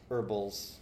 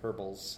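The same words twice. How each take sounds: First: The word begins with a silent h. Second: The word begins with a pronounced h.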